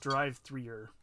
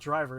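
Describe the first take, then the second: First: It sounds like drive followed by three-er. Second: It sounds like the plain word driver. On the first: The speaker calls it right. "it's drive threer" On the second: The speaker calls it wrong. "it's not driver"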